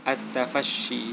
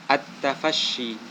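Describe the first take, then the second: The two takes are said the same way.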